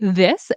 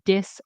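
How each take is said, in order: First: The word begins with a soft th sound. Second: The word begins with a hard d sound. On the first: The speaker calls it right. "say this" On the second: The speaker calls it wrong. "don't say dis"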